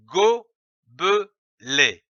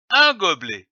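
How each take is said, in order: First: "gobelet" slowly split into go, be, let; three separate beats in "gobelet", with a pause after each; syllable by syllable. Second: Said in the usual way. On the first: Shown as a demonstration. Teacher joining three syllables for beginning readers, "gobelet" slowly broken into go - be - let. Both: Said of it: "L'association de ces trois syllabes".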